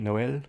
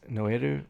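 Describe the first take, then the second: First: It is said close to French, ending in L. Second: It is said with an extra final 'ru' syllable. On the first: "in Korean" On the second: "in Japanese"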